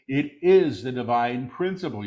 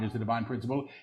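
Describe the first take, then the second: First: Deliberate full-voice repeat; measured proclamation. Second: Quick, soft undertone; hushed preview. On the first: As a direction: proclaim it clearly, word by word. Same words repeated in full voice. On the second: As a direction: say it softly and rapidly before proclaiming it. Quick soft take before repeating aloud. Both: Real, not acted.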